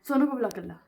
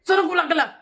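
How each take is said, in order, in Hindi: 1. यह शांत लहजे में कहा गया है। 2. यह गुस्से से कहा गया है। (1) "या ऐसे बोला" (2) "गुस्से से बोली"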